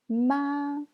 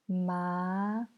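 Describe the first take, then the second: First: It is said with the first tone. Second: It is said with the second tone. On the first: "C'est le premier ton" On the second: "C'est le deuxième ton"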